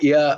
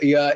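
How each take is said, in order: The two takes are said the same way.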